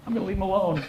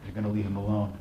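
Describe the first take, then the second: First: High-pitched, cowed echo; meek compliance. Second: Low-key, firm order; calm command. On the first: Cowed attacker obeying the bigger bodybuilder, meek high echo. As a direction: repeat the order back in a small high voice. Grabber echoes meekly. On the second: Bigger bodybuilder ordering the attacker off, calm command. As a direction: tell him evenly, no room for argument. Rescuer orders, grabber echoes. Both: Acted.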